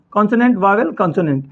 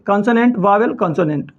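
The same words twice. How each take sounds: The two takes are said the same way.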